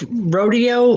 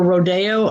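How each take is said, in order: First: "rodeo" as ROH-dee-oh, stress up front; first name pronunciation. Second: "rodeo" as roh-DAY-oh, stress on DAY; second name pronunciation. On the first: Medium unsure of a client's name, "rodeo" said ROH-dee-oh. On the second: Medium offering another reading of the name, "rodeo" said roh-DAY-oh. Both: Shown as a demonstration. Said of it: "not sure how you want it pronounced".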